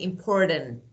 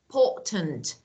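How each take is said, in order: First: The middle T is weak, not strongly released. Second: The middle T is released strongly and clearly. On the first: The speaker calls it wrong. "So we don't say" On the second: The speaker calls it right. "We have a strong T"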